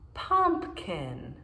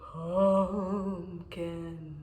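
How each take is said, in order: First: It is said in a plain, normal voice. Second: It is said in a spooky ghost voice.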